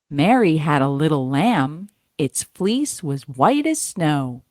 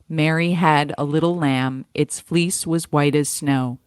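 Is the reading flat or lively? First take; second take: lively; flat. First: It is read with some lively inflection. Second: It is read flat, with no inflection.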